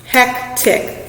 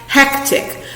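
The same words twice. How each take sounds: First: Hectic whispered once more; teacher repeating Hectic for students; syllable demo again. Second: Hectic whispered, both parts clear; teacher sounding out Hectic; syllable demo. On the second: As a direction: breathe out Hectic in two beats. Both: Shown as a demonstration. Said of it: "How many parts do you hear?".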